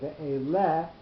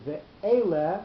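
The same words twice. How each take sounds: First: The stress falls on the last syllable. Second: The stress falls on the middle syllable. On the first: The speaker calls it wrong. "normally pashta will be at the last syllable of the word, but because we're not going to say" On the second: The speaker calls it right. "we're going to say ve'ele, because we need to accent that that a, the the the aleph"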